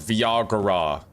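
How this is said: It is said with an Italian accent.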